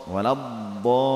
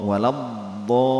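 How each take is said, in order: The two takes are said the same way.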